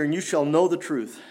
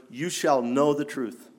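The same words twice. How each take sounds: First: Said in the usual way. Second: "shall" leaned on, phrase slowed down; slow and weighty, pressing hard on "shall"; stress on shall. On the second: Shown as a demonstration. Preacher drilling the verse into the congregation, "shall" stressed slowly. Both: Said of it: "I want to put some emphasis on those words".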